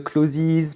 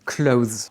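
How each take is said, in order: First: CLOSES with an extra "ziz" syllable at the end; mistaken pronunciation. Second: CLOTHES in one syllable, like "cloze"; corrected pronunciation. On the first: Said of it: "Pas de ziz à la fin". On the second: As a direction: say clothes with no extra syllable at the end. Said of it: "C'est pas la peine". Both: Shown as a demonstration.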